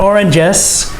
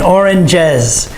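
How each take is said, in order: First: The word ends with a hissing s sound. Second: The word ends with a buzzing z sound. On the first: The speaker calls it wrong. "It's not oranges" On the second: The speaker calls it right. "You have to put the jez on the end, oranges. And the S has the Z sound"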